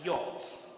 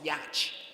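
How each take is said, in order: First: The middle consonants are silent, no 'ch' sound. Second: Every consonant is sounded, including a 'ch' sound. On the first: The speaker calls it right. "It is yacht" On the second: The speaker calls it wrong. "Y A C H T is not yacht"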